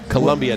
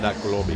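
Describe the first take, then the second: First: The second syllable has a u vowel. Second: The second syllable has an o vowel. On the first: It names the place in Maryland. "with a hard U" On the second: It names the South American country.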